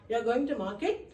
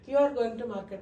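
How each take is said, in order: First: The pitch rises at the end. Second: The pitch falls at the end. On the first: It asks a question. "By rising the ఇంటనేషన్" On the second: It states a fact. "It's a statement, not a question"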